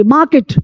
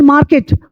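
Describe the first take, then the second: First: "Market" with the R left silent. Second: "market" with the R pronounced before the K; sounded R. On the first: English teacher models the word for Hindi-speaking learners, silent R. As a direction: say "Market" as MAH-ket, no R sound. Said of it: "आर silent हो जाएगी". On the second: English teacher shows learners what not to say, R sounded. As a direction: say "market" as MAR-ket, R audible. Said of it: "not market". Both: Shown as a demonstration.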